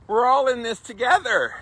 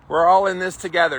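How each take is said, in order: First: Mock cliché. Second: Said in the usual way. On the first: Repeating the cliché, higher.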